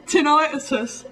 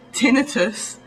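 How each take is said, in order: First: "tinnitus" as tin-EYE-tus, high-pitched with amusement; imitated American pronunciation. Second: "tinnitus" as TIN-uh-tus; English pronunciation. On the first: English speaker creased up by Americans, high "tinnitus" as tin-EYE-tus. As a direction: stress a long i in "tinnitus", high. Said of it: "Americans say tinnitus". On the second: English speaker showing how we say it, TIN-first "tinnitus". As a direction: stress the short TIN in "tinnitus". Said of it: "We say tinnitus". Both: Shown as a demonstration.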